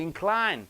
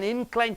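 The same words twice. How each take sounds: First: The stress is on the second syllable. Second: The stress is on the first syllable. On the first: It is a verb. "for the verbs you are stressing on the end syllable" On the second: It is a noun. "the nouns you are stressing on the first syllable"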